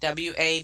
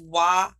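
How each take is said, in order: First: It is spelled out letter by letter. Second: It is said as a single word. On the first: The speaker calls it right. "it should try to say A D A and W A" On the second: The speaker calls it wrong. "Washington as Wa"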